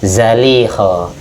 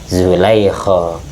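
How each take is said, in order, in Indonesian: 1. Suku kata pertama berbunyi 'a', lalu 'li'. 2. Suku kata pertama berbunyi 'u', lalu 'lai'. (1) "bisa bacanya zaiknya fathah, lamnya kasroh" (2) "Bisa dibaca zaiknya dhammah, itu selamnya fathah"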